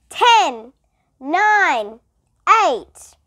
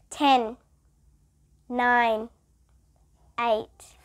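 First: Loud countdown numbers; shouted countdown. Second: Said in the usual way. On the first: A narrator's reading. Principal counting down for Stephen, loud. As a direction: bark out each number. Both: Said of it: "He had to shout the numbers".

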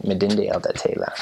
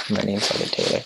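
First: Twi-style Elda Taylor, er said as a flat uh; Ghanaian accent. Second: Said in the usual way. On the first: Shown as a demonstration. Missionary teaching his Twi name, Ghanaian accent. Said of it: "you have to say it sort of in their accent". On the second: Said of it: "E R ends up sounding like an A".

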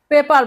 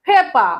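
First: পেপার with the final r sounded; common pronunciation. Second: পেপা with the final r dropped; correct pronunciation. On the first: Teacher quoting how many learners say it, পেপার with the r voiced. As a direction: say পেপার ending on an audible "r". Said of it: "অনেকে পেপার বলে". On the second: Teacher showing students how pepper is pronounced, পেপা without r. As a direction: say পেপা ending on an open "aa", no r. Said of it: "কিন্তু এটার উচ্চারণ হবে". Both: Shown as a demonstration.

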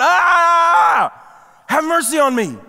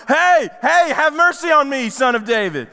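First: A higher, louder desperate cry; retold louder shout. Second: High, loud cry for help; retold yell. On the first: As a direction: shout it all the more. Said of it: "But he shouted all the more". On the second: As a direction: call out over a crowd. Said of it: "The first time he yells out to him".

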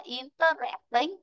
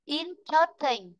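First: "interesting" with stress on the third syllable, in-ter-EST-ing; the wrong way, stressing "interesting" on EST; wrong stress shown. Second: "Interesting" slowly with stress on IN. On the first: Teacher showing pupils the wrong stress. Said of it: "Chứ đừng có đọc là". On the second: Teacher modelling "Interesting" to the class. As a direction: stress the first syllable of "Interesting". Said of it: "Chứ đừng có đọc là interesting". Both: Shown as a demonstration.

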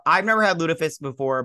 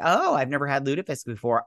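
First: "never" pushed up and louder, disgusted; stress on never. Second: Said in the usual way. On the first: Real, not acted. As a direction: lean hard on "never". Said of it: "it sounds freaking awful". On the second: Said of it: "And they're like".

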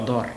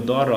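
First: দর as one closed syllable; read joined. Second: দ and র as separate open sounds; letter by letter. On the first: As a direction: pull র onto দ to make দর. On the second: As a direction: sound out দ, then র. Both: Shown as a demonstration. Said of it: "রকে টেনে নেব".

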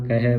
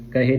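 First: ਕਹਿ said as kahai, open final "ai"; dulavan vowel. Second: ਕਹੇ with a narrow close final vowel; wrong vowel. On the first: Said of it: "ਇੱਥੇ ਵੀ ਦਲਾਵਾਂ ਲੱਗੀਆਂ". (ਕਹਿ ਨੂੰ "ਕਹੈ" ਵਾਂਗ ਬੋਲੋ) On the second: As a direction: end ਕਹੇ on a tight "ay/ee" sound. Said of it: "ਨਹੀਂ ਪੜ੍ਹਨਾ". (ਕਹੇ ਨੂੰ ਲਾਂ ਨਾਲ ਬੋਲੋ) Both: Shown as a demonstration.

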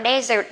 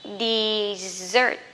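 First: Desert in place of dessert, first vowel open "de"; wrong dessert. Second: Dessert drawn out with a long buzzing z; corrected dessert. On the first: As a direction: say "desert" as the mistaken reading. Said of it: "các bạn nhớ không đọc là desert nha". (desert đọc sai, âm đầu là "đe") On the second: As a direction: say "Dessert" as di-ZERT, slowly. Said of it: "có hai chữ S nè". (dessert đọc kéo dài âm z) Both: Shown as a demonstration.

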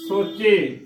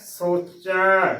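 First: ਸੋਚੇ ending in a closed ay vowel. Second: Slow ਸੋਚੈ, long open ai at the end. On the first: Teacher showing others' misreading, ਸੋਚੇ with closed e. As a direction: finish ਸੋਚੇ on narrow e, not open ai. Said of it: "ਕਿਵੇਂ ਉਚਾਰਨ ਕਰਦੇ ਨੇ". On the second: Teacher answering with correct reading, drawn-out ਸੋਚੈ, open ai. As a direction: stretch the wide ai vowel closing ਸੋਚੈ. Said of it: "ਇਸ ਦਾ ਸਹੀ ਉਚਾਰਨ". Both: Shown as a demonstration.

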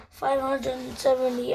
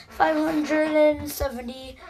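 First: Said in the usual way. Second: Voice crack. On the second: Real, not acted. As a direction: voice cracking upward. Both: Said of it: "that was a voice crack".

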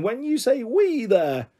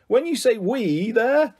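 First: "we" pitched high and stretched, falling away after; pointed stress on "we". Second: "we" drawn out, higher, then rising on "there"; questioning stress on "we". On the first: Ruby querying Sam again, pointed stress on "we". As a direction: slowly lean hard on "we". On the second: Ruby interrupting Sam to question him, stress on "we". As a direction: slowly query the word "we". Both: A narrator's reading.

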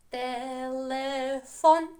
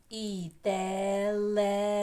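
First: Телефон very slow, each syllable stretched, rising at the end; slow syllables again. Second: Телефон drawn out slowly, syllable by syllable. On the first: Teacher repeats телефон very slowly for the class. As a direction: drag out телефон clearly for repetition. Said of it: "І ще раз". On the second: Teacher slowly pronounces телефон for pupils. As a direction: stretch телефон slowly for children to copy. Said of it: "промовляємо з ротиком". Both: Shown as a demonstration.

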